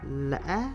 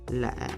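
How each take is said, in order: First: The pitch rises to the highest level. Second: The pitch drops low and short. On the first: "this tone gives the highest rising pitch among the six tones" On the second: "the lowest tone given a low dropping pitch ... a short bass effect"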